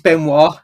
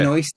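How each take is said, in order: First: The name ends without an s sound. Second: The name ends with an s sound. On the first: The speaker calls it right. "she doesn't pronounce her own name properly, though, because it's Benoit" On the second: The speaker calls it wrong. "not Benoist"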